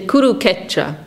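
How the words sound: The s sound in the word is dropped. This is how a Bengali speaker pronounces it. "for Bengalis, this S is silent"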